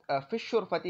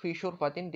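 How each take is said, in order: First: "الشرفتی" said with al- joined to fi and a short -ti ending; definite form. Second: "شرفتن" said with a clear -in ending, no al-; indefinite ending. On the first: Teacher shows the definite form "الشرفتی" as fish-shurfati. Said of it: "لیکن اگر میں یوں کہتا". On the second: Teacher shows the indefinite form, ending "شرفتن" in -tin. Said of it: "اگر میں یوں کہہ دیتا". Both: Shown as a demonstration.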